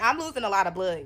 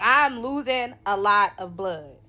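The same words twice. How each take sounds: First: Said in the usual way. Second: "I'm losing a lot of blood" spaced out word by word; emphatic repeat. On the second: Real, not acted.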